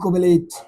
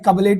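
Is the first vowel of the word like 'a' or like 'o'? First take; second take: o; a. First: The first vowel sounds like a long 'o'. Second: The first vowel sounds like a short 'a'. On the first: The speaker calls it right. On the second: The speaker calls it wrong. "अबे कबलेट नहीं"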